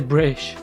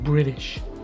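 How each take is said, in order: First: The T in the middle is dropped entirely. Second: The T in the middle sounds like a D. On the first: "I won't say British" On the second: "Replacing the T with a D in American English"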